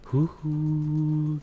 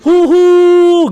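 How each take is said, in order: First: It is said small and quiet. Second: It is said big and loud. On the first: "kecil-kecil huhu gitu" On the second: "huhunya tuh harus gede"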